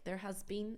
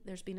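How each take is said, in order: First: The word 'has' is pronounced in full. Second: The word 'has' is contracted to an s.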